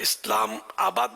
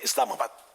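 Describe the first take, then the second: First: The 'aa' is drawn out, splitting the word. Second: The 'aa' is short, joining the word smoothly. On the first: The speaker calls it wrong. "मद बोलने की जरूरत नहीं है। इस्लाम आबाद बोलने की जरूरत नहीं है" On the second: The speaker calls it right. "सही तलफ़ुज़ भी है इस्लामाबाद"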